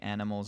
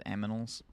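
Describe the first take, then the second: First: The n and m sounds are in usual order. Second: The n and m sounds are swapped. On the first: The speaker calls it right. "I usually say animals" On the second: The speaker calls it wrong. "as aminals"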